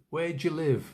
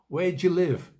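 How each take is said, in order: First: Do and you merge, giving three syllables. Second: Do and you merge, giving three syllables.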